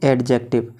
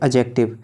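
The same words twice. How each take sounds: First: The d sound is clearly pronounced. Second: The d sound is left silent. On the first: The speaker calls it wrong. "जिसे बहुत से लोग पढ़ते हैं" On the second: The speaker calls it right. "इसकी सही pronunciation होती है ... डी हमेशा साइलेंट रहती है"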